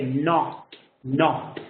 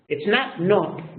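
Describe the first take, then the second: First: Not with an open aw-like vowel; correct not. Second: Not with a rounded o, slow; wrong o in not. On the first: Teacher models the correct open vowel in not. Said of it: "You say". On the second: Teacher mimics the wrong rounded o in not. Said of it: "not is incorrect". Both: Shown as a demonstration.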